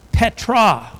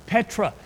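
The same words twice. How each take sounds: First: Petra ringing out louder and higher; stressed word. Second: Said in the usual way. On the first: Shown as a demonstration. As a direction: land hard on Petra, the key word. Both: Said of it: "it says the word for rock is the word".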